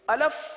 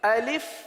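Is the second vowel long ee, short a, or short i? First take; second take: short a; short i. First: The second vowel is a short 'a' sound. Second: The second vowel is a short 'i' sound. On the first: The speaker calls it wrong. "अब इसको अलफ पढ़ना ... ये गलत है।" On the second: The speaker calls it right. "तो अलिफ को इस तरह पढ़ेंगे"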